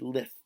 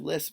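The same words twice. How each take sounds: First: The s sound is made with a lisp. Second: The s sound is made clearly. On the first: The speaker calls it wrong. "I would have said lisp" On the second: The speaker calls it right. "Instead of lisp"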